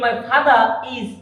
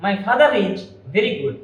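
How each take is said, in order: First: Father is said with no r between, "fada is"; R dropped. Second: Slow model, father linked to is with an r; linking R pronounced. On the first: Teacher showing the wrong way, r missing in "father is". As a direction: slowly break father from is, no r. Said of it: "তাহলে হবে না". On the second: Teacher demonstrating to students, audible r in "father is". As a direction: sound the r between father and is. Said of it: "এখানে আরটা কিন্তু শোনা যাচ্ছে". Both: Shown as a demonstration.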